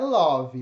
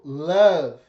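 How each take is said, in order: First: It is said with a Brazilian Portuguese sound. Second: It is said with an English pronunciation. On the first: The speaker calls it wrong. "Não é love, love é forró" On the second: The speaker calls it right. "Em inglês é to love"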